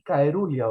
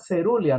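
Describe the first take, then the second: First: The word begins with a hard 'kai' sound. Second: The word begins with a soft 'se' sound. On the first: The speaker calls it wrong. "ni caerulia" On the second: The speaker calls it right. "se pronuncia cerulia"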